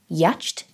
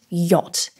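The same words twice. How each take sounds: First: It is sounded out following its spelling. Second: It is said with its usual spoken form. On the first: The speaker calls it wrong. "using English phonetics" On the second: The speaker calls it right. "but the word is in fact"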